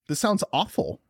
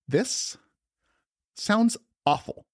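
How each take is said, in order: First: It is said in the speaker's own natural voice. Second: It is said in a put-on imitating voice.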